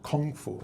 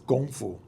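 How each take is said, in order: First: The first word starts with a hard K sound. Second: The first word starts with a soft G sound. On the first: This is the form English speakers adopted. "we speak English and it's become, you know" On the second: This is the Cantonese way of saying it. "correct pronunciation in uh, more or less like co- close to Cantonese"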